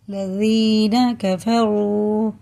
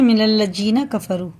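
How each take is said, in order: First: Very slowly stretched लजीना कफरू, each syllable pulled long; slow drawn-out wrong recitation; drawn-out wrong reading. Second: मिनल लजीना कफरू joined smoothly, no stretched syllables; correct recitation. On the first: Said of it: "कफरू नहीं पढ़ेंगे". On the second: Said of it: "ऐसे पढ़ते हैं". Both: Shown as a demonstration.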